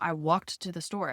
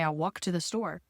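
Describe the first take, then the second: First: The final D sound of walked is pronounced. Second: The final D sound of walked is dropped. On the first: It was a single past action. The speaker calls it right. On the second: It sounds like a general habit. The speaker calls it wrong.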